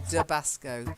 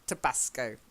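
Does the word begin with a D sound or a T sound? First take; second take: D sound; T sound. First: The word begins with a soft D sound. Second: The word begins with a hard T sound. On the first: The speaker calls it wrong. "You're saying duh. You're not saying t" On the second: The speaker calls it right. "It's hard T"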